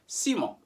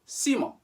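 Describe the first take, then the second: First: The final T is silent. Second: The final T is silent.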